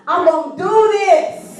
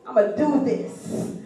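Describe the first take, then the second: First: Higher, slow, determined declaration; bold resolve. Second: Soft, slow muttered resolve; quiet self-talk. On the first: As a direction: announce it proudly, full of confidence. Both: Retold or imitated. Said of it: "I got on the boat".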